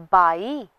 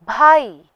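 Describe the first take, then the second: First: बाई with a plain unbreathed b; unaspirated b. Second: भाई louder, with breath on bh; aspirated bh. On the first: Teacher contrasts ब and भ, बाई with unaspirated b. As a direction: say बाई without any puff on b. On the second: Teacher contrasts ब and भ, भाई with aspirated bh. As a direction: push a puff of air into भाई. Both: Shown as a demonstration. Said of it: "अलग-अलग उच्चारण करते".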